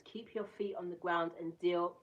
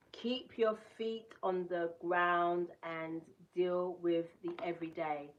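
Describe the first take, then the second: First: Said in the usual way. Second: Slowed right down, reading each word again; slow careful reread. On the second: Shown as a demonstration. Rereading the card line after stumbling, slowly. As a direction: take it again, slowly and deliberately. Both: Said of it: "mm-mm".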